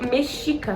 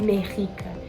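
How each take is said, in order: First: The middle consonant is a soft 'sh' sound. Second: The middle consonant is a throaty 'h' sound. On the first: The speaker calls it right. "é povo mexica" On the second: The speaker calls it wrong. "não é povo merrica"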